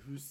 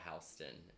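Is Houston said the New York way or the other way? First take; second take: other; New York. First: The name is said the non-New York way. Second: The name is said the New York way. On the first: "instead of Houston" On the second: "In New York, I now say Houston"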